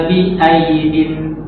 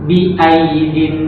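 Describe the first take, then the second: No difference in how they are said.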